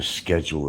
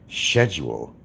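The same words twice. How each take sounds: First: The word is said the American way. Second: The word is said the British way. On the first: "Instead of saying" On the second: "they'll say schedule because that's the way it's supposed to be spoken"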